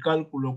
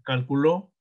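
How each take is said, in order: First: The stress is on the first syllable. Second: The stress is on the last syllable. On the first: "cuando lleva el acento en la antepenúltima sílaba" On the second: "aguda cuando lleva el acento en la última sílaba"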